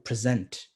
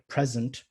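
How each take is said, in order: First: The stress is on the second syllable. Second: The stress is on the first syllable. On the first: It is used as a verb. "the moment you turn these into verbs, the stress moves... into the next syllable" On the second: It is used as a noun. "when you use it as a noun, then the stress would be... on the first syllable"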